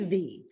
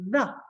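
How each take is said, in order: First: The vowel is full and clear. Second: The vowel is reduced to a schwa. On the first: The speaker calls it wrong. "We're not going to say the" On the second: The speaker calls it right. "change it to a schwa sound"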